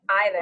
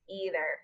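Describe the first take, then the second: First: The word begins with an 'eye' sound. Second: The word begins with an 'ee' sound. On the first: This is the British way of saying it. "I think the British use either. / I I T H E R" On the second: This is the American way of saying it. "the Americans use / E"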